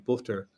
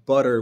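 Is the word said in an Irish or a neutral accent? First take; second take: Irish; neutral. First: It is said in an Irish brogue. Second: It is said in a neutral accent.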